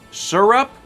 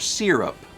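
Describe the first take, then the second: First: The first syllable sounds like "sir". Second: The first syllable sounds like "seer". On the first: "S I R U P" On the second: "S E E R U P"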